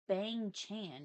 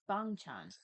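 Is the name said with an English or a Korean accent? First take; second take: English; Korean. First: The name is said with an English vowel. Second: The name is said with a Korean vowel. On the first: The speaker calls it wrong. "it's not Bang Chan" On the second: The speaker calls it right. "when you say it with the actual Korean accent"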